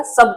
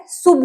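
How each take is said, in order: First: सब with a short "uh" vowel, like English "sub"; सब, u sounded as a short "uh"; correct sound सब. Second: शुभ pronounced "soob", with an "oo" vowel; शुभ as the mistaken "soob"; misreading with "oo". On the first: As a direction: read सब as "sub", not "soob". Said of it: "ये sound करेगा सब का". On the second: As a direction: sound the u of शुभ as "oo". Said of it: "शुभ नहीं पढ़ना है". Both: Shown as a demonstration.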